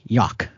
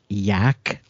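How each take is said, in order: First: The vowel rhymes with yacht. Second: The vowel rhymes with track. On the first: The speaker calls it wrong. "like it rhymed with yacht" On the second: The speaker calls it right. "instead of with track"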